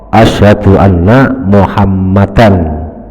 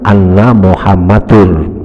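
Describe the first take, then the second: First: The last word ends with an -an sound. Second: The last word ends with an -ur sound. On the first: The speaker calls it right. "karena itu muhammadan jadi isimnya inna" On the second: The speaker calls it wrong. "jangan anna muhammadur"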